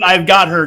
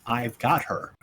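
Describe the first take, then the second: First: Louder, firm restatement; insistent repeat. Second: Soft, low murmur; quiet reminder. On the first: Retold or imitated. Player quotes own line to one who missed it, insistently. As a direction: repeat it so it is heard. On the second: Real, not acted. Player reminds the table of the earlier line, quietly. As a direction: say it low, almost to yourself. Unheard line, repeated afterwards.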